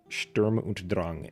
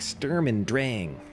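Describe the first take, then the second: First: It is pronounced with German sounds. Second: It is pronounced with English sounds. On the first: The speaker calls it right. "is the uh, correct pronunciation" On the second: The speaker calls it wrong. "in the live stream and everywhere else, they're like"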